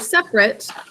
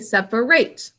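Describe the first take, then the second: First: It is given its adjective pronunciation. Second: It is given its verb pronunciation. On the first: It describes something that stands apart. "As an adjective, we say separate" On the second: It is an action of dividing things. "As a verb, we say separate"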